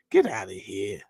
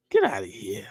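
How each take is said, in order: First: Low, scornful brush-off; dismissive scoff. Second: A scornful whisper to himself; whispered scoff. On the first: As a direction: wave it away with contempt. Scoffing at the bill's wording. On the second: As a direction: whisper it in disbelief. Repeats the dismissal, whispered. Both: Real, not acted.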